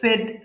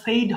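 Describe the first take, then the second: First: The vowel is short, like in 'bed'. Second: The vowel is long, like in 'made'. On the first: The speaker calls it right. "দেখেন উচ্চারণটা কি বললাম" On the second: The speaker calls it wrong. "এটা আবার কিন্তু আবার সেইড হবে না"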